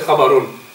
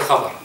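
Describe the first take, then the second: First: The word ends with an added 'un' sound. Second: The word ends on the final consonant, no vowel. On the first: The speaker calls it wrong. "we don't say khabarun" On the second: The speaker calls it right. "we say khabar"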